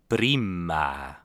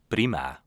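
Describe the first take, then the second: First: It is said more slowly. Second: It is said at normal speed.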